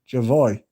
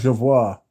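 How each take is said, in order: First: The name ends with an 'oy' sound. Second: The name ends with a 'war' sound. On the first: The speaker calls it right. "pronounced like enjoy" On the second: The speaker calls it wrong. "So it's not Jevoir"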